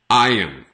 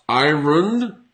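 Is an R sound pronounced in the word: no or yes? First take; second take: no; yes. First: The word is said without an R sound. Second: The word is said with an R sound. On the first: The speaker calls it right. "commonly pronounced as iron" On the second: The speaker calls it wrong. "it is not iron, even though the spelling is like that"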